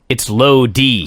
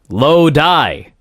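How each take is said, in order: First: The second syllable sounds like 'dee'. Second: The second syllable sounds like 'die'. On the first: The speaker calls it right. "he corrects himself to Low D" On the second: The speaker calls it wrong. "He says it's Low Die"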